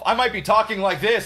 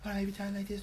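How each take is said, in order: First: It is said very loudly. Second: It is said very quietly.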